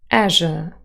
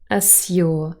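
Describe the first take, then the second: First: The middle sounds like 'zh', z and y merged. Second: The middle sounds like 'zyu', with separate z and y. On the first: "with J coalescence" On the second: "This is R P"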